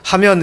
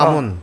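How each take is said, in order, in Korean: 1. 이 단어는 표준어 'myeon' 소리로 끝납니다. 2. 이 단어는 방언 'mun' 소리로 끝납니다. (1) "하면 이렇게 이게 표준어인데" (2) "표준어를 안 쓰고 하문"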